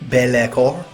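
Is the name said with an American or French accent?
French. It is said with a French-sounding accent.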